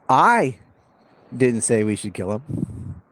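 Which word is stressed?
I. The word "I" carries the stress. Someone else said it. "Means it wasn't me"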